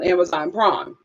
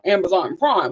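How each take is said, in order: First: It is said in an ordinary, natural voice. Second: It is said in an exaggerated, imitated voice.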